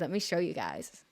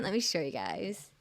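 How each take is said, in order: First: Said in the usual way. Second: Put-on light Valley girl accent, rising at the end. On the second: Shown as a demonstration. Streamer showing viewers some art, light Valley accent. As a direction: lilt it upward in a mild Valley accent. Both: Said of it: "In my Valley accent".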